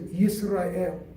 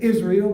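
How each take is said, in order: First: The name begins with a 'y' sound. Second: The name begins with a plain vowel sound. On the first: This is the original Hebrew form. "in Hebrew we pronounce it as Yisrael" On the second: This is the everyday modern form. "Today we say Israel"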